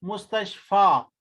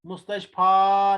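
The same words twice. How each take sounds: First: मुस्तशफा slowly, with the final a drawn out long; wrong long alif. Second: मुस्तशफा with a short final a, quickly clipped; short alif. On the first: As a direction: hold the last vowel of मुस्तशफा too long, as the wrong way. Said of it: "मुस्तशफा नहीं पढ़ना है". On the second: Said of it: "यानी अलिफ मकसूरा". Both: Shown as a demonstration.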